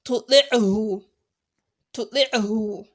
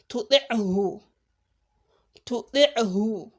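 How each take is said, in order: Both takes have the same delivery.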